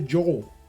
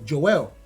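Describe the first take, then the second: First: The name is said with an American pronunciation. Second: The name is said with a non-American pronunciation. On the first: This is how others usually say the name. The speaker calls it wrong. "Americans would say Joel" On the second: This is how the name's owner says it. The speaker calls it right. "the way I presented my name to him"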